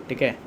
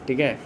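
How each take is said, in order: The two takes are said the same way.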